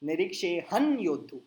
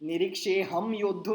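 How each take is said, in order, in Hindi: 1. 'yoddhu' से पहले का अनुनासिक n ध्वनि है। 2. 'yoddhu' से पहले का अनुनासिक m ध्वनि है। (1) "पीछे वाला न" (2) "हर जगह म चेपना नहीं है, निरीक्षेऽहं योद्धु नहीं होता है"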